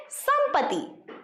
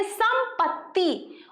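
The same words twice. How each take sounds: First: संपत्ति said higher and slow, lighter t; other reading. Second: संपत्ति with the doubled tt held, said carefully; correct pronunciation. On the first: Teacher contrasts the second spelling, saying संपत्ति high and slow. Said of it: "और इसको क्या कहेंगे". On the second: Teacher models संपत्ति for the class, with a clear doubled t. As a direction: give संपत्ति its full clean doubled t. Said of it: "इसलिए हम इसका pronunciation करेंगे संपत्ति". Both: Shown as a demonstration.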